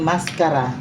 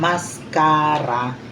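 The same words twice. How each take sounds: First: The word is said quickly, at normal speed. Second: The word is said slowly and drawn out. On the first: It means a mask for the face. "yun ay pagmumukha" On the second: It means makeup for the eyelashes. "na binagalan mo yung pagbigkas"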